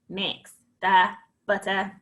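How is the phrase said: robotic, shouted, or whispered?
robotic. It is said in a flat, robotic voice. "And robot it"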